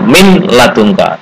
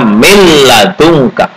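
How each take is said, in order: First: The n is pronounced separately before the l. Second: The n merges into the following l. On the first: This is the underlying written form. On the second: This is how it is actually recited.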